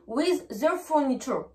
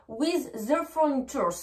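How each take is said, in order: First: "furniture" with no final s; teacher's model, "furniture" without any plural ending; correct form. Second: "furnitures" with an s on the end; teacher's wrong example, "furnitures" ending in s; wrong plural. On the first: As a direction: end "furniture" on the bare last syllable. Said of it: "Non, je dis". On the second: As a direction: add a final s sound to "furnitures". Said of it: "Je ne dis pas". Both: Shown as a demonstration.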